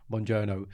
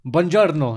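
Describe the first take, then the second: First: Softer "Buongiorno" with an English r; learner's flat attempt. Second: Slow, full "buongiorno" with rolled r; proper Italian pronunciation. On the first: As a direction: say "Buongiorno" quietly, without rolling the r. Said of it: "And she'll be like". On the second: Retold or imitated. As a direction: model "buongiorno" carefully, sounding the r. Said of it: "Just say it properly".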